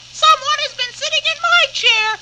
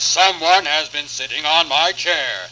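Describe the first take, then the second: First: It is said in a squeaky voice. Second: It is said in a rough voice.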